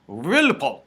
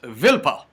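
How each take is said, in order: First: It begins with a W sound and ends in T. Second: It begins with a V sound, no final T. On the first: The speaker calls it wrong. "it's spelled Wilpot" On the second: The speaker calls it right. "it's pronounced Vilpo"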